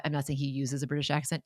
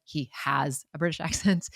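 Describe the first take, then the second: First: "uses" picked out for contrast; stress on uses. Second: "has" picked out as the correction; emphatic "has", amused correction; stress on has. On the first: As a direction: lean on "uses" as the word being corrected. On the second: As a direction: lean on "has" against the earlier verb. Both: Real, not acted.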